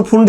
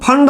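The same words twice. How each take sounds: First: "फुंड" with a short u, as in "put"; preferred pronunciation. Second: "फंड" with a short uh vowel, like English "fund"; variant pronunciation. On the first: Teacher stating his own preference, "फुंड" with u. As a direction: say "फुंड" with उ in place of अ. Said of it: "मैं तो फुंड ही बोलता हूँ". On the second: Teacher quoting how some people say it, "फंड" with uh. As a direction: say "फंड" with अ in place of उ. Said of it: "कुछ लोग फंड बोलते हैं". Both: Shown as a demonstration.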